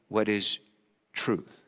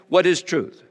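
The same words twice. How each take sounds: First: Quiet, softer searching question; a hushed, hopeful wondering about truth. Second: Scornful, dismissive question; a Roman governor's sneer at the idea of truth; disdain. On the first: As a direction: ask it as if hoping for an answer. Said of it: "a part of me maybe said it in hope". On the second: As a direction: toss it off with contempt. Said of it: "I said that with some disdain". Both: Acted.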